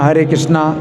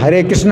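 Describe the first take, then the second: First: The name ends with a long 'a' vowel. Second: The name ends without a final long vowel. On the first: The speaker calls it wrong. "हम बोलते हैं हरे कृष्णा" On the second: The speaker calls it right. "वैसे तो हरे कृष्ण है"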